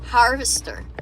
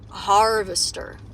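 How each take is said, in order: First: It is said in the speaker's usual Australian accent. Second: It is said in an attempted American Midwest accent. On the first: "I'm still saying in the same fucking way" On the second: "Let me try that again. ... Is that American?"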